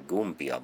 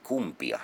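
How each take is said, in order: First: The word begins with a voiced G sound. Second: The word begins with a voiceless K sound. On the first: The speaker calls it wrong. "Se ei suinkaan ole Gumbia" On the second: The speaker calls it right. "vaan siis Gumbia C:llä"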